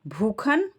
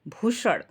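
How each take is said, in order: First: The middle consonant is a 'kh' sound. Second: The middle consonant is an 'sh' sound. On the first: This is the Awadhi dialect form. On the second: This is the standard form.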